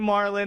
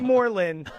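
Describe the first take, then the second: First: The name is said as Marlon. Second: The name is said as Moreland. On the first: The speaker calls it right. "you say Marlon" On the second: The speaker calls it wrong. "You don't say Moreland"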